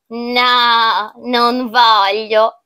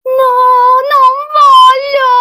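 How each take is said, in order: First: Slow, drawn-out, understated no; unruffled refusal. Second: Very high, loud, drawn-out wail; child's desperate refusal. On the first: Child declining the pumpkin soup, slow measured refusal. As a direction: stretch the refusal out without raising the voice. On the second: Child threatened with being cooked and eaten, shrieked wail. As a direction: scream it out like a panicking child. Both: Acted.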